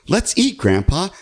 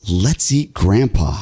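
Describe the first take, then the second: First: It sounds cheerful and warmly inviting. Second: It sounds sinister, not warmly inviting.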